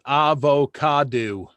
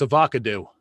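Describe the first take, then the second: First: AVOCADO drawn out slowly, ending in "doo"; mock correction. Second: AVOCADO as "uh-VOCK-uh-doo"; joke mispronunciation. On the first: Host relaying Maddie's correction on saying avocado, slow mock-correct AVOCADO ending in "doo". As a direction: stretch AVOCADO syllable by syllable, ah-voh-cah-DOO. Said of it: "Maddie says where we're pronouncing avocado wrong". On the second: Retold or imitated. Host topping his own correction of avocado, joke "uh-VOCK-uh-doo". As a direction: punch the second syllable of AVOCADO and end it in "doo". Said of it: "No, it's avocado".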